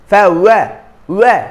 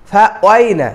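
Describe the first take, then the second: First: ফা ওয়া with a clean open ওয়া, no glide; correct pronunciation, demonstrated. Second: ফা ওয়াই said with a gliding ওয়াই; wrong pronunciation, demonstrated. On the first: Teacher models the correct ফা ওয়া. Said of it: "এমনও নয়". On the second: Teacher imitates the common mistake for students. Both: Shown as a demonstration.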